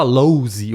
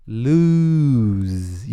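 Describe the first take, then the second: First: "lose" as lowzi with an o glide and extra vowel; mock learner "lose"; wrong lose. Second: "lose" as looz, long u and buzzing z; correct lose. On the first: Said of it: "você não fala lose". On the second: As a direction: stretch "lose" with a z at the end. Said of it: "Você fala um lu". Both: Shown as a demonstration.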